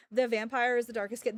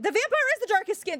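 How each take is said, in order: First: Said in the usual way. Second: Much higher and louder, indignant; incredulous raised repeat; exasperated outburst. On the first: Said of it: "repeated louder". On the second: Real, not acted. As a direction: blurt it out in disbelief. Emphatic repeat of claim.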